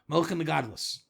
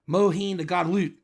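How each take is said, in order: First: It is said with an Ashkenazi-style s ending. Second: It is said with a Texan drawl. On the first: "As they say in normative Judaism" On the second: "As they call it in Texan Kabbalah"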